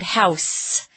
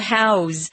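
First: The word ends with a hissing s sound. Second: The word ends with a buzzing z sound. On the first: It names a building to live in. "If it's a noun, it's an S sound" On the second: It means to contain something inside. "if it's being used as a verb, then it's a Z sound"

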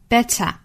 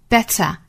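First: The middle t is strongly aspirated. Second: The middle t is strongly aspirated.

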